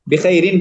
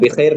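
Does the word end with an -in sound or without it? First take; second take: with -in; without -in. First: The word ends with an added -in sound. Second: The word ends without the added -in sound. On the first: The speaker calls it right. "बिखैरिन पढ़ेंगे" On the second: The speaker calls it wrong. "बिखैर नहीं"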